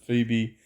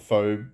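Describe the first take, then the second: First: The name is said the common, usual way. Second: The name is sounded out following its spelling. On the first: "but people pronounce it Phoebe" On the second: "I call it Phoebe because that's how it's spelt"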